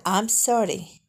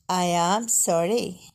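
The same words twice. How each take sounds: First: Slow, with "I'm" as one syllable; short "I'm", drawn-out "sorry"; contracted form. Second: "I am" as two words, AM stressed; uncontracted, weight on "am"; full form. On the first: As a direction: merge I and am into "I'm" before "sorry". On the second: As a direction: say "I am sorry" word by word. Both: Shown as a demonstration. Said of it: "بالصيغة المختصرة".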